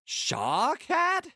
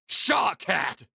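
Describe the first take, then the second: First: It is said in a questioning, inquisitive way. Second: It is said in an angry way.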